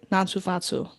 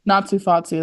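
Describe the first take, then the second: First: A thick Boston accent on Natsu Fatsu. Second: Natsu Fatsu in a Boston accent. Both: Shown as a demonstration. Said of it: "it's like a Boston accent".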